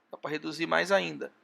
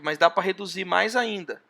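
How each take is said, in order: First: Softer echo of the same phrase, said to himself; quiet repeat. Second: Said in the usual way. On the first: Real, not acted. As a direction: repeat it under the breath. (repetição mais baixa, quase para si mesmo)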